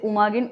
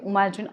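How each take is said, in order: First: The middle consonant is a hard g sound. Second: The middle consonant is a j sound.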